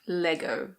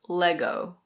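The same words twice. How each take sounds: First: It is said with a British pronunciation. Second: It is said with an American pronunciation. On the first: "that's the British pronunciation" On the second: "In American pronunciation, the O is a bit different"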